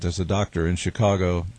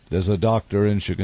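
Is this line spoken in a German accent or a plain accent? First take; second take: German; plain. First: It is spoken in a thick German accent. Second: It is spoken in the speaker's ordinary accent.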